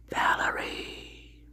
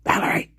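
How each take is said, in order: First: Breathy slow whisper of "Valerie"; whispered name. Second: Said in the usual way. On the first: Real, not acted. Greeting viewers by name.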